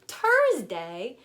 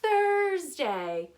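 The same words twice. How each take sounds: First: The word starts with a plain t sound. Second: The word starts with a th sound. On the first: The speaker calls it wrong. "starts with a t, t just like Tuesday, but we don't say Thursday" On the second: The speaker calls it right. "we say Thursday"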